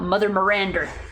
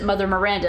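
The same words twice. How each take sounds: First: Miranda ends with an added r sound. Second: Miranda ends in a plain vowel sound. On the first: "sometimes that that er comes out" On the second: "Sometimes he just says it Mother Miranda and it's fine"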